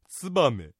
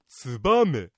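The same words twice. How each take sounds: First: The accent is not on the second mora. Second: The accent is on the second mora. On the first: The common general way to say the city name. "市を取って言う場合にはツバメと発音する人が多いようです" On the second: The usual local way to say the city name. "2 文字目のバにアクセントを置いてツバメと発音するのが一般的"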